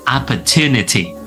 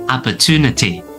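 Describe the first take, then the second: The two takes are said the same way.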